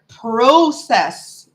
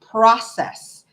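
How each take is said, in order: First: The first syllable sounds like 'pro'. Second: The first syllable sounds like 'prah'. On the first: "here, everything is pro" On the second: "in the States, I know it's process"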